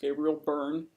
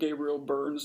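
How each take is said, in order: First: The surname ends without an s sound. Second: The surname ends with an s sound. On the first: The speaker calls it right. "It's Gabriel Byrne. He only has one burn" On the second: The speaker calls it wrong. "It's it's not Gabriel Burns"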